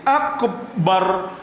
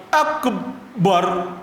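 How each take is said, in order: Both takes have the same delivery.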